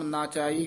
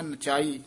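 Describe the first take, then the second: First: The first vowel is long. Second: The first vowel is short. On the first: The speaker calls it wrong. "ਆਮ ਨਾਚਾਈ ਕਹਿ ਜਾਂਦੇ ਨੇ" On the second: The speaker calls it right. "ਧਿਆਨ ਨਾਲ ਉਚਾਰਨ ਕਰਨਾ"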